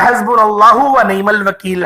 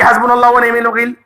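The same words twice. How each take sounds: First: It is said slowly and clearly. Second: It is said fast and rushed.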